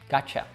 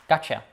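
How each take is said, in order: First: The final vowel is reduced to a schwa. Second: The same.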